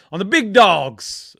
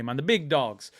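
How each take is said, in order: First: Drawn-out, loud hype on big dogs; Grizz's catchphrase. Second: Said in the usual way. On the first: Retold or imitated. Quoting his mate's catchphrase as a drawn-out loud hype call. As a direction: bellow the big dogs slowly like a hype man. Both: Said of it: "as Grizz likes to say".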